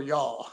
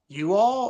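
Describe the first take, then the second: First: "y'all" run into one syllable; contracted Southern form. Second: "you all" as two full words; two separate words. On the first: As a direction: squeeze it into one word, "y'all". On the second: Retold or imitated. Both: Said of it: "I have been saying y'all".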